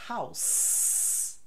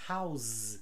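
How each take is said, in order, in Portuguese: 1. A palavra termina com som de s. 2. A palavra termina com som de z. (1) "eu falo com S" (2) "eu falo com Z"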